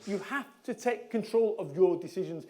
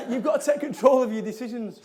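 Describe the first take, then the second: First: "have" stressed, then each word spaced out. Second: Said in the usual way. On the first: Real, not acted. Speaker driving home the point to the audience, stressing "have". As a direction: lean on "have", measured and deliberate. Repeats key message with stress.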